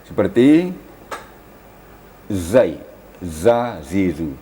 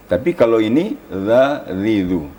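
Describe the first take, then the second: First: "zai, za, zizu" with a pressed buzzing z; whistling z demo; hissing zai. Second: "za, zizu" with a light th-like touch; tongue tip barely touching teeth for "zizu"; gentle dh sound; soft zal. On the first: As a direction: press teeth together for "zizu". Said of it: "safir atau agak keras". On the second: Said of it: "Hanya sekadar bersentuhan". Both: Shown as a demonstration.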